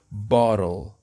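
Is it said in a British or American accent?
American. It is said in an American accent.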